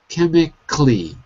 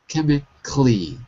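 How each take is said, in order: The two takes are said the same way.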